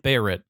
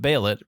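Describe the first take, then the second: First: The middle consonant is an R sound. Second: The middle consonant is an L sound. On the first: The speaker calls it wrong. "Bayrit sounds racist" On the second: The speaker calls it right. "I think it should be the L sound. I like. I prefer the sound of Baylet"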